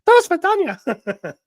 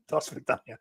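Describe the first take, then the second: First: Very high, loud put-on Russian goodbye; slow falsetto mock Russian accent; Dana impersonation. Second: Soft, hushed put-on Russian goodbye; quiet mock Russian accent; Dana impersonation. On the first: Dana saying goodbye for the chat, in a high, loud Russian accent. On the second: Dana saying goodbye for the chat, in a hushed Russian accent. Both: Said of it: "my Dana impersonation".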